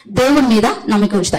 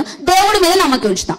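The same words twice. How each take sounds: First: Said in the usual way. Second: దేవుడి lifted high, falling to ఉంచుతా; emphatic declaration. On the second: Acted. Preacher answering her own question to the church, high stress on దేవుడి. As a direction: proclaim దేవుడి mీద నమ్మకం ఉంచుతా high on దేవుడి. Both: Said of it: "నేను ఎవరి మీద నమ్మకం ఉంచుతా?".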